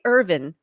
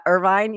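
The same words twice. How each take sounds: First: Irvin said as ER-vin, stress on the first syllable; the GPS version, Irvin with the stress up front; wrong pronunciation. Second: Irvine said er-VINE, stress on the second syllable; the right way, Irvine with the stress at the end; correct pronunciation. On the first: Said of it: "she'll say Irvin instead of Irvi". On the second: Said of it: "instead of". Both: Shown as a demonstration.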